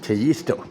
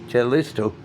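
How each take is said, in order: First: The double L sounds like a Y. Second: The double L sounds like an L. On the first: "When you put the two L's together, it is pronounced yeah" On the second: "I suppose you could pronounce it Callisto"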